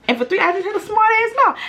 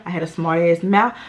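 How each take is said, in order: First: Much higher, put-on voice on the repeat; high mock voice. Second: Said in the usual way. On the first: Shown as a demonstration. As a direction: jump way up for the punchline. Says the line twice.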